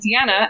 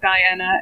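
First: The name is not said the English-American way. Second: The name is said the English-American way. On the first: This is the speaker's own way of saying her name. "my full name is Deanna" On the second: This is how people in England and America say it. "as you pronounce it in England and America"

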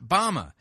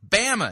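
First: The first syllable does not rhyme with 'bam'. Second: The first syllable rhymes with 'bam'. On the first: The speaker calls it wrong. "It's not Bama" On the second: The speaker calls it right. "Bama, as in Alabama... how's that chef go, bam? It's Bama"

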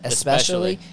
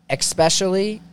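First: The word begins with an 'es' sound. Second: The word begins with an 'ex' sound. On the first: The speaker calls it right. "It's not X" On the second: The speaker calls it wrong. "I say especially instead of"

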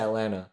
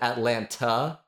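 First: The middle T sound is dropped. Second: The middle T sound is clearly pronounced. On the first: This is how locals say the city name. The speaker calls it right. "When people here don't use the T. They just say Atlanta" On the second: This is how an outsider says the city name. The speaker calls it wrong. "when Lawrence Fishburne said Atlanta, he said Atlanta"

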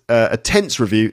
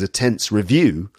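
First: The stress falls on the word tense. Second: The stress falls on the word review. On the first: It is a review of grammar tenses. "that means it's going to be a review of tenses" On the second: The review itself is stressful. "it's going to be a review which is tense"

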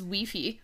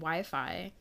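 First: It is said with a Spanish accent. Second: It is said with an American accent.

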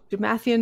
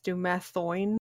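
First: The name ends with an 'ee-an' sound. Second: The name ends with an 'oh-in' sound. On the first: The speaker calls it wrong. "I also am reading this wrong" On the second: The speaker calls it right. "It's Dumathoin"

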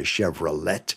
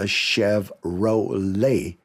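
First: The middle syllable is said with an 'a'. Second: The middle syllable is said as 'ro'. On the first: The speaker calls it wrong. "It's not a Chevrolet" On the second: The speaker calls it right. "There is no A in Chevrolet, and there is a row"

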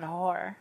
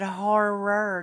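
First: The word is said so it sounds like an insult. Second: The word is said as the usual 'horror'. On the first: The speaker calls it wrong. "not horror" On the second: The speaker calls it right. "if you're trying to say it properly, you should have said horror"

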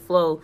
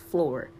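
First: The word ends without an r sound. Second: The word ends with a clear r sound. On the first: "I didn't say floor. I said flow" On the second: "single me out in front of the class and be like"

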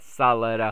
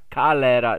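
First: The name starts with an S sound. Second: The name starts with a K sound. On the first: The speaker calls it wrong. "not La Salera. So it would be an S if it was Salera" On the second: The speaker calls it right. "It is pronounced La Calera"

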